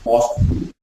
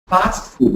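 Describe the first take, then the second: First: The vowel in fast sounds like an O. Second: The vowel in fast is an open A sound. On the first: The speaker calls it wrong. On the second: The speaker calls it right. "Don't convert this O to an A and A to an O"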